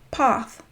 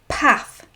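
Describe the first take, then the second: First: The vowel is longer and softer. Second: The vowel is short and harsh. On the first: "further south they would say path" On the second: "We would say path"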